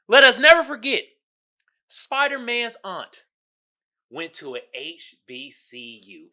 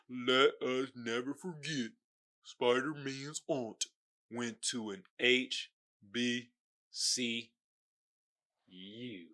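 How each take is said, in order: First: The sentence is read at a normal pace. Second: The sentence is read more slowly.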